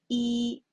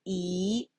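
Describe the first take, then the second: First: The pitch stays high and level. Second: The pitch rises from middle to high. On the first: "the first"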